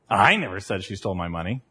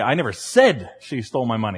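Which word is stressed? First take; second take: I; said. First: The word I is stressed. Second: The word said is stressed.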